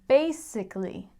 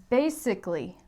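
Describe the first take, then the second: No difference in how they are said.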